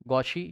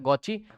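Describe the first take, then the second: First: The middle consonant is an sh sound. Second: The middle consonant is a ch sound. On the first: "गौशी या गौची, जो बोलना बोलो" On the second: "गौची बोला जाता है"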